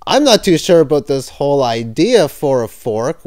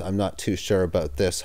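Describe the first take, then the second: First: Said in the usual way. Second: Low, quiet muttered aside. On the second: Real, not acted. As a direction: mutter it under your breath. Muttered aside after WWE joke.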